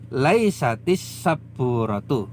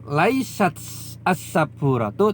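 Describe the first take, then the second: First: Laisat links with an i into the next word. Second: Laisat stays separate from the next word. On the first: The speaker calls it right. "tapi laisatis sabburatu ... lebih mudah diucapkan" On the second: The speaker calls it wrong.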